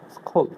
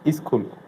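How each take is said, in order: First: It starts directly with the s sound. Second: An extra vowel sound comes before the s. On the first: The speaker calls it right. "Right pronunciation" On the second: The speaker calls it wrong. "that is wrong pronunciation"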